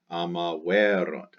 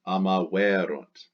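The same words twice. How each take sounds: First: Amaverunt, accent on erunt; stress on erunt. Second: Amaverunt with the stress on the e of erunt. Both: Shown as a demonstration. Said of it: "Accent on the erunt".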